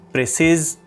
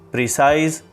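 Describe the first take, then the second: First: It sounds like the English word 'precise'. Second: The same.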